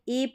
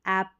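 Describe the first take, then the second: First: The vowel sounds like the e in pet. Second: The vowel sounds like the a in cat. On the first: The speaker calls it wrong. "इसको एप नहीं पढ़ेंगे" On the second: The speaker calls it right. "इसको ऐप पढ़ेंगे"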